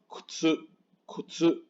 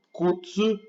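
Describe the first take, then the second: First: Kutsu with a whispered first U, "k'tsu"; U like a sigh. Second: Higher kutsu, "koo-tsu" in full; fully sounded U. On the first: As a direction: let the U in kutsu be just air. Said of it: "es como un suspiro". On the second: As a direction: voice the first U of kutsu clearly. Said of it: "no suena muy bien". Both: Shown as a demonstration.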